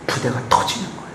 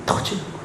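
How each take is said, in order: First: 부대가 whispered quickly, rising. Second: 터지는 said very softly; almost breathe 터지는; hushed. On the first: Preacher whispering to the congregation that the skin bursts. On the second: Preacher hushing the word 터지는 to the congregation. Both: Shown as a demonstration.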